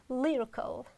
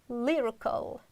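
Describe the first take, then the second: Both takes have the same delivery.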